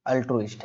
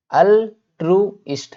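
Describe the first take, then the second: First: Said in the usual way. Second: अल्ट्रुइस्ट slowly as al - tru - ist; syllable-by-syllable. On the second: Shown as a demonstration. Teacher drills pronunciation for class, अल्ट्रुइस्ट slowly by syllable. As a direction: sound out अल्ट्रुइस्ट in three separate beats. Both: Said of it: "pronounce भी करना सीखना".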